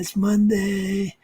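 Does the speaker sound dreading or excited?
dreading. It is said with a weary, dreading tone. The week ahead feels like a burden. The speaker calls it wrong. "Monday's not this, oh man"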